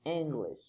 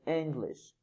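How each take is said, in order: First: The first vowel is short. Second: The same.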